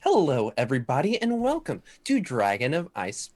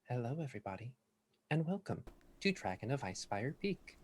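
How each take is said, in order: First: It is said louder and with more energy. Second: It is said quietly and calmly.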